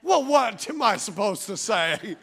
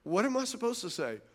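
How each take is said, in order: First: Slow, drawn-out mock exasperation; exasperated protest. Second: Soft, withdrawn retort; shutting down. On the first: Husband told he is shutting down, exasperated protest. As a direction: stretch it out in comic frustration. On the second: Acted. Husband accused of raising his voice, shutting down softly. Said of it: "now you're just gonna shut down".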